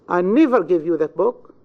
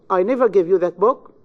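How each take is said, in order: First: The stress falls on the word never. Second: The stress falls on the word I. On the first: "In the second, on never" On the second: "In the first sentence, you have the stress on the pronoun I"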